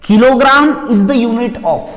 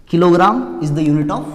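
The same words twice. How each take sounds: First: Higher, louder and very slow, each word stretched; drawn-out emphatic prompt. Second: Said in the usual way. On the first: Shown as a demonstration. Teacher prompting students to finish the sentence, loud and very slow. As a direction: call it out slowly to the class, leaving the end open. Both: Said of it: "चल ध्यान से सुनेंगे".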